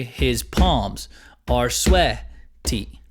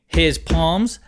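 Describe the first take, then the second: First: Slow, "palms" and first syllable of "sweaty" accented. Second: "his palms" with equal weight on both words; equal stress. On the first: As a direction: tap out the beat, weight on "palms" and "swea-". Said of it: "I would probably accent palms". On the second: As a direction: give "his" as much volume as "palms". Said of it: "having the same exact volume". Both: Shown as a demonstration.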